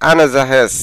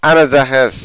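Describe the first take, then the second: The two takes are said the same way.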